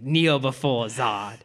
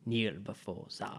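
First: Very slow, drawn-out kneel command; slow Zod quote. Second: Low, slow, hushed Zod growl; a hint of General Zod, drawn out. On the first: Retold or imitated. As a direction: stretch each word like a taunt. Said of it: "He's like". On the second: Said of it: "telling people to kneel before him".

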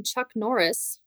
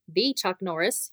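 First: Said in the usual way. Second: "the" stressed with a rising tune, said thee. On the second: Shown as a demonstration. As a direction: lean on "the" as in the famous one.

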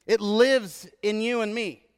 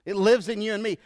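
First: LIVES stressed, slow and drawn out; emphatic. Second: Said in the usual way. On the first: Shown as a demonstration. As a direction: lean on lives slowly.

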